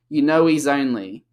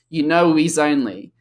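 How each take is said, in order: First: The words run together, with the h dropped. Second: The words run together, with the h dropped.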